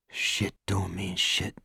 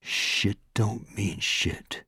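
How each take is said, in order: First: Hushed, slow, to himself; soft slow mantra. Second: Softer and slow, almost gone; fading mantra. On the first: Morris after the assault, softly repeating his mantra. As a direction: murmur it slowly to yourself. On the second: Morris comforting himself, fading whispered mantra. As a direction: let it fade into silence. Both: A narrator's reading. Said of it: "he told himself".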